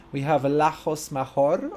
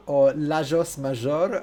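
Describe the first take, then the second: First: Lajos Major with a hard "j" sound in both names; first try at the name. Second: Lajos Major with a "zh" sound: "la-zhosh ma-zhor"; second try at the name. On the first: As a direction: say "Lajos Major" as "la-hosh ma-hor". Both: Shown as a demonstration. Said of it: "I, I don't know".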